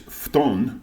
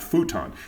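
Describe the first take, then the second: First: The u sound after the f is dropped. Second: The u sound after the f is fully pronounced. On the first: The speaker calls it right. "Just like it's futon" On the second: The speaker calls it wrong. "not futon"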